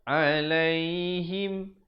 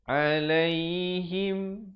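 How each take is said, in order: No difference in how they are said.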